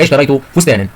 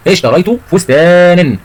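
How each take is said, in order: First: Said in the usual way. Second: Slow, higher, long-drawn فستانا; slow emphatic repeat. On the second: Shown as a demonstration. Teacher repeats the example before asking about tanween, slow and emphatic. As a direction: stretch out فستانا for the class.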